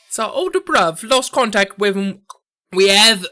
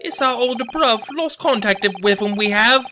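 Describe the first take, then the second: First: Second stab at a Cockney mobster, pitched up; attempted Cockney accent. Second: Higher-pitched Cockney mobster voice; a raised, effortful stab at Cockney; attempted Cockney accent. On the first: Mobster retelling the lost older bruv, effortful Cockney accent. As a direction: struggle through a Cockney accent, louder at the end. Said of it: "It's so hard". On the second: Mobster explaining the lost older bruv, strained Cockney accent. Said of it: "I can't do accents today".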